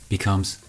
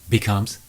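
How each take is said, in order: The two takes are said the same way.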